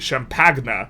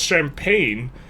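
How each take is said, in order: First: The word is said in an alternative way. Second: The word is said the speaker's ordinary way.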